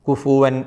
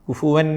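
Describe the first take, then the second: The two takes are said the same way.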